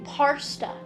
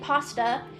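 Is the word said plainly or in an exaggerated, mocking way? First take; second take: exaggerated; plain. First: The word is said in an exaggerated, mocking way. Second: The word is said in a plain, normal way. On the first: This is how the British think Americans say it. "the British believe ... that they're saying parsta" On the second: This is how Americans actually say it. "when Americans say pasta"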